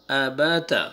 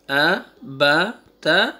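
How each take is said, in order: First: آ، با، تا in one connected go; three letters joined. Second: آ، با، تا spaced out, each standing alone; separate letters. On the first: Teacher repeats the second reading for students, آ، با، تا linked. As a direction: run آ، با، تا together. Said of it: "three letters کو آپ ایک ساتھ بولیں". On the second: Teacher repeats the first reading for students, آ، با، تا separated. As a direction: pause after each of آ، با، تا. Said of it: "روک کے بولتے ہیں". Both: Shown as a demonstration.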